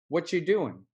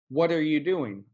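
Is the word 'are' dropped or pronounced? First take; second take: dropped; pronounced. First: The word 'are' is left out. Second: Every word is said, including 'are'. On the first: "Or we can say" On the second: "It's kind of like when you say"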